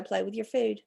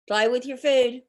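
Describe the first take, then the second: First: Said in the usual way. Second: P=A; punchy motto. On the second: Shown as a demonstration. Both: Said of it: "Remember, that's my motto".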